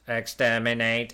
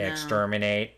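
First: It is said in a British accent. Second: It is said in an American accent. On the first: The speaker calls it right. "in the British version, the only version, they shout" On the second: The speaker calls it wrong. "in an American accent? ... putting that little R in there"

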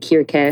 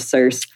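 First: The name is pronounced the Greek way. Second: The name is pronounced the English way. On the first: "Some people go with the Greek" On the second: "I like Cersei or Circe"

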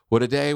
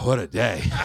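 First: It is said in a bright, optimistic tone. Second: It is said in a tired, weary tone. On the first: The day ahead looks promising. "Like it's optimistic" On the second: The day has been exhausting. "by the end of the day, it's like, oh"

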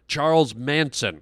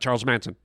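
First: The two words are said separately at normal pace. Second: The two words are squished together and said fast.

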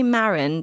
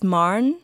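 First: The name is said with an English pronunciation. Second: The name is said with a Norwegian pronunciation. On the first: The speaker calls it wrong. "I say Maren because I'm British and butcher everything" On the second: The speaker calls it right. "apparently it's Maren would be the correct pronunciation"

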